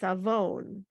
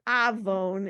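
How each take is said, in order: First: The stress is on the second syllable. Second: The stress is on the first syllable. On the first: The speaker calls it right. "it's avon because the trope notes... on the second syllable" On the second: The speaker calls it wrong. "It's not"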